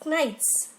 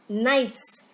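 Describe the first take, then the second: First: The word begins with a k sound. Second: The word begins with an n sound. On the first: The speaker calls it wrong. "we do not pronounce the word as knights" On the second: The speaker calls it right. "but knights, and K is silent in this word"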